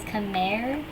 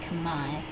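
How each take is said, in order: First: It is said with an English-style pronunciation. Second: It is said with a native-style pronunciation. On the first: The speaker calls it wrong. "it hurts my head every time people pronounce it as Khmer" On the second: The speaker calls it right. "So like kamai"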